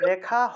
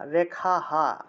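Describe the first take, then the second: First: The final h has no vowel after it. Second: The final h is followed by an a vowel. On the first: The speaker calls it wrong. "রেখা হ হবে না" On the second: The speaker calls it right. "কারণ আগের অক্ষরের সাথে আকার আছে"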